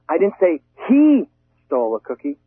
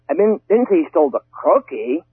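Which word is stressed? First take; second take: he; stole. First: The stress falls on the word he. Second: The stress falls on the word stole. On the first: A different person took it. "maybe she did" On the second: The item was taken in another way. "Maybe he was just borrowing it"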